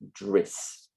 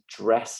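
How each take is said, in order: First: The vowel is raised toward an 'i' sound. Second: The vowel is an open 'e' sound.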